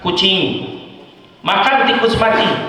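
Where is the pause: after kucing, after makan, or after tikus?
after kucing. The pause comes after kucing.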